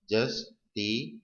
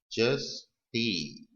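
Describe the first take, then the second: First: Dictating justify slowly; slow demo word repeated. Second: Stretched dictation of justify; slow demo word. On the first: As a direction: justify drawn out very slowly with a rise. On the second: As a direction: justify drawn out very slowly. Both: Shown as a demonstration.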